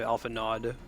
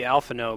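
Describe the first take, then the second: First: The name ends with an audible d sound. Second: The name ends on a vowel, no final d. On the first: This is how many US voice actors say it. The speaker calls it wrong. "a lot of the U S voice actors say Alphanod" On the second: This is the intended pronunciation. The speaker calls it right. "it's supposed to be Alphino"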